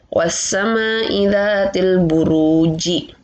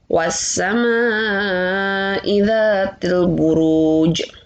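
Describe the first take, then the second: First: The last word ends with a short i vowel. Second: The last word ends on a bouncing consonant. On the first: The word is read with its full ending, without stopping. "Asal harokat jim itu kasroh, harusnya dibaca ji" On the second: The reader stops at the end of the verse. "maka kita wakafkan, maka kita sukunkan"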